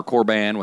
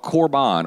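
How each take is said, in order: First: "korban" with a short flat-a "ban" ending; "korban" ending like the word "ban"; alternate pronunciation. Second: "korban" with an open "ahn" ending; "korban" ending in a broad ah sound; alternate pronunciation. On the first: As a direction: say "korban" as kor-BAN, rhyming with man. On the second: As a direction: say "korban" as kor-BAHN. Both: Shown as a demonstration. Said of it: "however you want to say it".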